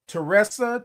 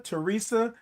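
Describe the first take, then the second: First: Teresa with a short e, te-RESS-a; trying a pronunciation. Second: Teresa with a long ee, te-REE-sa; trying a pronunciation. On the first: Host trying a viewer's name, te-RESS-a in Teresa. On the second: Host settling on viewer's name, te-REE-sa in Teresa. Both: Real, not acted.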